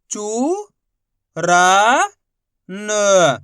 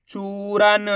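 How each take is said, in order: First: चू, रा, न long and separate, रा louder; letter by letter. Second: चूरन as one stretched word; letters blended. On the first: Teacher demonstrating for pupils, letter by letter. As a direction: sound out चू... रा... न with pauses. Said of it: "एक ही अक्षर का उच्चारण करके". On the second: Teacher putting the letters together, blended. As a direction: join चू, रा, न without pauses. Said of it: "तो मिलके बन जाएगा". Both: Shown as a demonstration.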